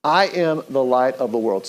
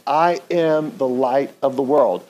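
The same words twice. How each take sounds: First: Said in the usual way. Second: Slow, deliberate, each word placed; slow unison recital. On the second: Shown as a demonstration. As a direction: say it slowly along with the room. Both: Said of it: "Say that with me".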